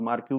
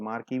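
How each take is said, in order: First: मार्क्यू pronounced "maar-kyu"; variant pronunciation. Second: मार्की pronounced "maar-kee"; variant pronunciation. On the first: Teacher showing students how some people say it, variant pronunciation "maar-kyu" for मार्क्यू. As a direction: say मार्क्यू ending in a "kyu" sound. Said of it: "कुछ लोग मार्क्यू भी बोलते हैं". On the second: Teacher showing students how other people say it, variant pronunciation "maar-kee" for मार्की. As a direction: say मार्की ending in a "kee" sound. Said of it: "कुछ लोग मार्की भी बोलते हैं". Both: Shown as a demonstration.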